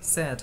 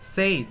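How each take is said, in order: First: The vowel stays steady like 'a' in 'sad'. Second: The vowel glides like 'ay' in 'say'. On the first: The speaker calls it right. "উল্টো ওখানে আর একটা এর মতো উচ্চারণ হবে" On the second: The speaker calls it wrong. "আসলে এটা উচ্চারণ মেইনলি সেইট না। আই এর উচ্চারণটা হবে না"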